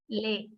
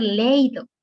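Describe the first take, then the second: First: "leído" broken into le-Í-do, stressed on Í. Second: "leído" mispronounced as LEI-do, stress on the first syllable; wrong stress. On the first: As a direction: draw out "leído" in three slow syllables, hitting the í. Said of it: "nos dice, acentúame". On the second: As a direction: run e and i of "leído" into one diphthong, LEI-do. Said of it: "No podría ser leído". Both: Shown as a demonstration.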